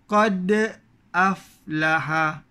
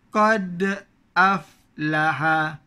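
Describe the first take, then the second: No difference in how they are said.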